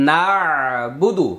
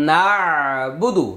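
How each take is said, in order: No difference in how they are said.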